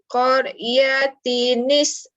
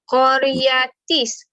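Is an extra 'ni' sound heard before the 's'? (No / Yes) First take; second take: Yes; No. First: An added 'ni' links the tanwin to the s. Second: The tanwin merges straight into the s sound. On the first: The speaker calls it right. "Saya bacakan" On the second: The speaker calls it wrong. "Kalau baca qariyatis, ha, tak ke pelik?"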